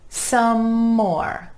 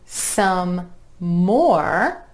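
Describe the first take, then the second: First: The M sound flows unbroken into the next word. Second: The M sound breaks between the two words. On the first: The speaker calls it right. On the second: The speaker calls it wrong.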